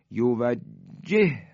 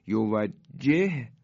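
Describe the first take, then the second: First: یوجهه chanted slowly with one doubled ه; merged recitation. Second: یوجهه chanted slowly, both ه named apart; unmerged recitation. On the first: Teacher demonstrating the merge to students, slow chant. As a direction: press the two ه into one strong ه. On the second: Teacher showing the two ه before merging, slow chant. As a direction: recite یوجهه slowly, letters still separate. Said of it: "های اول ساکن". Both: Shown as a demonstration.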